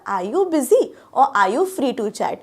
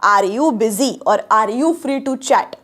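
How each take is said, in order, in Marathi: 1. 'are' मधला 'r' silent आहे. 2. 'are' मधला 'r' स्पष्टपणे उच्चारला जातो. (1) "तो र ऐकू नाही येते कानाला ... मी म्हणते कसं" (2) "मी असं म्हणते का बघा, ... नाही"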